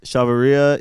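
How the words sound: It is said with an American English accent.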